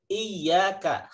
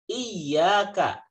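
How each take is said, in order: No difference in how they are said.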